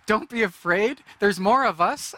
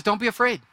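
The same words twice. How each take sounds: First: High, louder mocking parrot; mocking echo. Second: A hint of a firm prophet; calm prophet. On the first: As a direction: mimic the prophet's words with scorn. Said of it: "my first thought is". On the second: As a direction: reassure like a prophet. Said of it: "He says".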